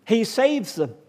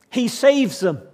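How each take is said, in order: First: Said in the usual way. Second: "He saves them" declared louder, with "saves" hit hard; emphatic declaration. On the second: Real, not acted. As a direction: hammer the word "saves". Repeated declaration in sermon.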